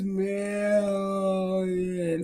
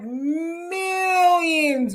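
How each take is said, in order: First: It is said slowly, drawn out. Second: It is said at normal speed.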